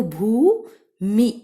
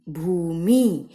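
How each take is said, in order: First: भूमि slow, with the ऊ held long and loud; slow drawn-out भूमि with a long ऊ; long oo sound. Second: Said in the usual way. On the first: Shown as a demonstration. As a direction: stretch the ऊ in भूमि for the class. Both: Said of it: "ऊ की sound ज्यादा ले रहे हैं".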